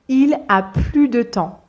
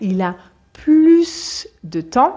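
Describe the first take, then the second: First: The S in 'plus' is silent. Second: The S in 'plus' is pronounced. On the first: He no longer has any time. "c'est une phrase négative et c'est pour ça que je ne prononce pas le S" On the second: He has more time. "ça veut dire il a davantage de temps"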